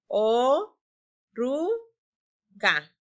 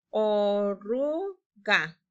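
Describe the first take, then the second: First: "O, ru, ga" split into three clear beats; syllables apart. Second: "Oruga" drawn out very slowly, falling at the end; stretched slowly. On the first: Teacher blends "O, ru, ga" for the class, syllable by syllable. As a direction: tap out "O, ru, ga" one syllable at a time. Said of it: "combinarlas juntas". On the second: Teacher models "Oruga" for pupils to echo, very slowly. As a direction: stretch every sound of "Oruga". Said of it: "Repitan conmigo". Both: Shown as a demonstration.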